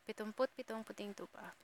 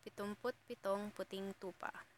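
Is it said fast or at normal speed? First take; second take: fast; normal speed. First: It is said very fast. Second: It is said at a normal speed.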